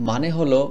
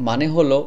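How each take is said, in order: The two takes are said the same way.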